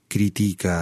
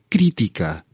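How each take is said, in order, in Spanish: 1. El acento cae en una sílaba posterior. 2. El acento cae en la primera sílaba.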